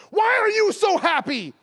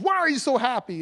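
First: High, loud, drawn-out exclamation; astonished question. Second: Raised pitch, toned-down retold exclamation; milder astonished question. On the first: Retold or imitated. Young sales associate to watch shopper, astonished shout. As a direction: imitate a young clerk bursting out in amazement. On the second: Retelling the sales associate's question, mildly astonished. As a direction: quote the amazed clerk lightly.

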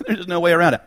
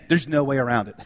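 First: Laughing repeat. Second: Said in the usual way. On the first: Real, not acted.

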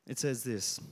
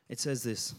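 The two takes are said the same way.

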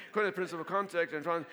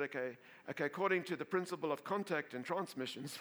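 First: Faster, louder retake. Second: Said in the usual way. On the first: Shown as a demonstration. Pastor retaking his laying-on-of-hands formula, quicker and louder. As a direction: rattle off According faster and louder. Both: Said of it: "I can't say, I can say".

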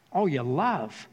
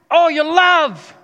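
First: Said in the usual way. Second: High, loud, drawn-out cry on love; passionate trainer yell. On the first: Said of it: "I didn't understand that phrase". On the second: Retold or imitated. Trainer urging Rocky in the final round, yelling. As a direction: belt all your love like a fight cry. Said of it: "He's talking so passionately".

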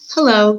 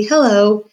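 First: Louder, sing-out greeting; cheerful hello, held out; merry call. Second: Louder, drawn-out cheerful greeting; sung-out, merry hello; merry call. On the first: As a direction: call it out merrily. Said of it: "called out merrily". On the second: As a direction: call out merrily across the way. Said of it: "P called out merrily". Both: A narrator's reading.

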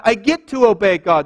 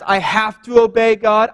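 First: "get to" stressed as a glad privilege. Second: "have to" said as a reluctant duty; stress on have to. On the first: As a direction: lift "get to" like a gift you were given. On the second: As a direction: lean on "have to" as if it were a chore. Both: Shown as a demonstration.

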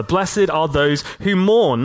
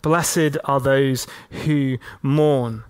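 First: Said in the usual way. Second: Tender reading. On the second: Shown as a demonstration. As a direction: let "Blessed" fall gently, each word drawn out. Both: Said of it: "he goes even one step further".

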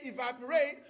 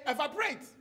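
First: "evaporate" said the American way; American pronunciation. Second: "evaporate" said in a Ghanaian accent, full vowels; Ghanaian pronunciation. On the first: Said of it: "You say". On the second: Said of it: "We pronounce shit differently". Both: Shown as a demonstration.

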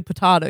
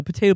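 First: Potato with an "ah" in the middle; variant pronunciation. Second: Potato with a long "ay" in the middle; first "potato" the "tay" way; variant pronunciation. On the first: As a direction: say potato as "po-TAH-to". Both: Shown as a demonstration. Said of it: "if someone says, you know".

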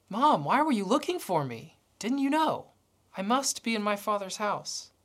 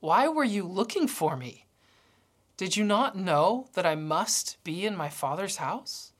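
First: Jesus puzzled, a touch of surprise in the question; genuinely puzzled why they searched; surprised boy. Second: Said in the usual way. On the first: Retold or imitated. Boy Jesus asks his mom, mildly surprised. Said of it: "looks up at his mom with surprise". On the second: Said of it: "says something shocking".

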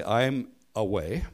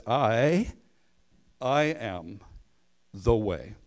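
First: Said in the usual way. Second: "I," lifted and set apart, then "I am the way"; repeated "I" carrying the emphasis; stress on I. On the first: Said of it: "he does not say". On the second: Shown as a demonstration. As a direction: lean on the pronoun "I" before "the way". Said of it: "He says".

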